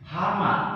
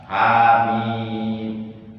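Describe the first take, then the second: First: Read as one short word ending in 'ma'. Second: Read as letter names, the final 'meem' drawn out. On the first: The speaker calls it wrong. "Hama, kan itu salah" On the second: The speaker calls it right. "Hanya dua harkat, mimnya lima harkat"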